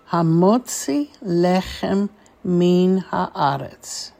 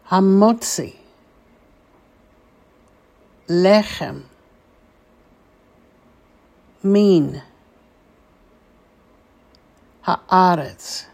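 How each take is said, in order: First: The words are said quickly, run together. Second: The words are said slowly, one at a time. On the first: "let's say this a little bit more quickly" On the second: "let's say these four words slowly"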